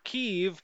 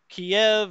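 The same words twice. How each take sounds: First: The name is pronounced the Ukrainian way. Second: The name is pronounced the Russian way. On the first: "because the Ukrainians pronounce it that way" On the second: "as the Russians pronounce it"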